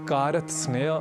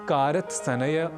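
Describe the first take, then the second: First: One extra vowel splits the consonant cluster. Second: Two extra vowels split the consonant cluster. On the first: "आदि न कहकर" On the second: "न कहकर"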